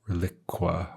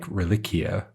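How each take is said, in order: First: The ending is said as 'kwah'. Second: The ending is said as 'kwee-ah'. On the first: The speaker calls it wrong. "not like reliqua or whatever" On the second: The speaker calls it right. "it's pronounced like reliquia"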